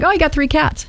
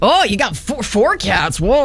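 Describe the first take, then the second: First: The reaction sounds calm and unimpressed. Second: The reaction sounds alarmed and taken aback.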